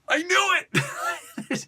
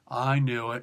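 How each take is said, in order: First: It is said excitedly, with lots of enthusiasm. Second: It is said flatly, with little enthusiasm. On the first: The predictable outcome was still thrilling. "there's a different enthusiasm when you're when you're saying it" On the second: The predictable outcome was a letdown. "it wasn't one of those things like"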